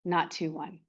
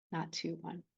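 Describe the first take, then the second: First: Said in the usual way. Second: Soft hushed echo. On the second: Shown as a demonstration. Teacher softly echoing her words to the class, hushed. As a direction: let "Not two one" fall to a near-hush, much softer.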